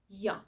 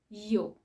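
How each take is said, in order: First: The vowel is reduced to a short ya sound. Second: The vowel is a full long oo sound. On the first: "they pronounce ya" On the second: "pronounce this word fully"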